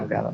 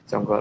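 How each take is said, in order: First: The vowels are pronounced as 'a'. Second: The vowels are pronounced as 'o'. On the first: This is the Sanskrit form of the name. "kalau orang pakai bahasa Sansekerta ngomongnya janggal A" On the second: This is the Kawi form of the name. "kalau orang pakai bahasa Kawi ngomongnya jonggol lo jonggol O"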